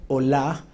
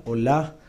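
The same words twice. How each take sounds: First: Olah, accent on the last A, rising; olah stressed on the A. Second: Olah, the final A stressed, lower and rising; olah stressed on the A again. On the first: Preacher teaching the Hebrew word, stress on the A. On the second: Preacher repeating the Hebrew word, stress on the A. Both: Shown as a demonstration. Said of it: "con acento en la A".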